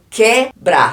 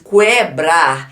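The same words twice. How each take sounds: First: The u after the q is silent. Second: The u after the q is sounded. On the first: "eu não pronuncio esse U aqui" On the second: "aí ia pronunciar, ia ser ditongo"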